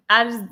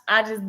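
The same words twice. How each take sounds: The two takes are said the same way.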